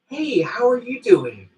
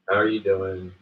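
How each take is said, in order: First: It is asked brightly, with enthusiasm. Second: It is asked flatly, without enthusiasm.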